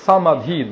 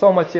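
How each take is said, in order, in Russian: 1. Средний согласный — придыхательный d. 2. Средний согласный — простой t. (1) "самадхи на санскрите звучит" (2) "это уже несколько такие тибетские формы произношения этого слова"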